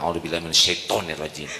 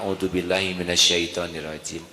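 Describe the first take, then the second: First: It is said in an irritated, offended tone. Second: It is said slowly and calmly.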